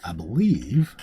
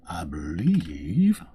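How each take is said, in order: First: Said in the usual way. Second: Very slow, stretched out; stalling over the next quest, drawing it out; drawn out. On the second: Shown as a demonstration.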